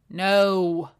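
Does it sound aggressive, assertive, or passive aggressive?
aggressive. It sounds harsh and aggressive.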